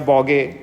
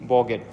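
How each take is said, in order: First: The final t sound is dropped. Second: The final t sound is pronounced.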